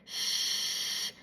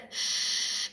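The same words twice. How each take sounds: First: A slushy shh with the air leaking out the sides; side-air shh demo. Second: A forced, airy shh with too much air; pushed hiss demo. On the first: Speech teacher demonstrating air escaping at the sides, slushy shh. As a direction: let the air spill over the sides of the tongue. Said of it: "If it's on the sides, it will sound like this". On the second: Speech teacher demonstrating an S pushed too hard, forced hiss. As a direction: push the air hard through the teeth. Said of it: "and so it might sound like this". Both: Shown as a demonstration.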